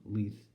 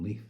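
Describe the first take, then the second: First: Said in the usual way. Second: "Leith" ending in f for th; impaired speech. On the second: Acted. Poet saying Keith's home town his way, impaired "Leaf". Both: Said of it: "to him he was".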